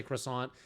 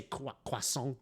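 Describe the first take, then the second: First: Said in the usual way. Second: "croissant" said the French way, "kwa-son"; French pronunciation. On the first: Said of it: "they don't say croissant". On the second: Shown as a demonstration. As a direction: say "croissant" as "kwa-sawn", nasal French ending. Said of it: "pronouncing European words correctly".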